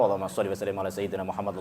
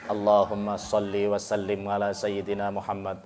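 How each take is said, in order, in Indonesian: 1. Dibacakan dengan cepat tetapi lengkap. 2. Dibacakan dengan pelan dan mantap. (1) "Terus jenengan panterna ora apa?" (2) "aja banter-banter ... kudu luwih alon maning"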